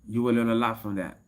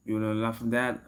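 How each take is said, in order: Both takes have the same delivery.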